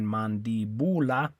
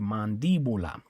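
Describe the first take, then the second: First: The stress is on the third syllable, bu. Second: The stress is on the second syllable, di. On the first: The speaker calls it wrong. "Should be stressed on the second last syllable. Should be the U, but they don't want you to stress it there" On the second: The speaker calls it right. "they put the accent on the I to tell you to stress it right there"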